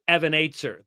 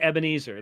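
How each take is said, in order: First: It is said with a Hebrew-style pronunciation. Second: It is said with the usual English pronunciation. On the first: "that's actually how it's pronounced. In Hebrew" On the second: "They don't say Ebenezer"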